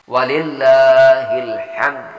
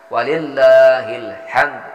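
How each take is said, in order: The two takes are said the same way.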